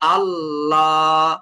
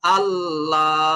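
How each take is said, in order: First: The L sound is heavy and full. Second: The same.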